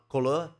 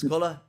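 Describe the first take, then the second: First: The word is said with a French-style pronunciation. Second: The word is said with a plain English pronunciation. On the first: The speaker calls it wrong. "not couleur" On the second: The speaker calls it right. "it's colour"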